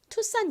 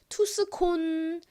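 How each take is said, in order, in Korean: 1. 가운데에 s 소리 하나로 합쳐져 있어요. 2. 가운데에 s 소리와 k 소리가 따로 있어요. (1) "투산이라고 읽는다는 거 기억해 주세요" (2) "이거를 잘못 읽으면은"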